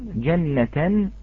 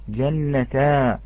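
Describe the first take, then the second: First: The word ends in a soft h sound. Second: The word ends in a long a vowel. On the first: The speaker calls it right. "مثال جنة" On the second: The speaker calls it wrong. "لا نقول جنة"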